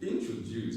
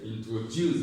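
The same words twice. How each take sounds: First: The stress is not on the last syllable. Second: The stress is on the last syllable. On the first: The speaker calls it wrong. "Some persons say introduce" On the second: The speaker calls it right. "the stress is on juice"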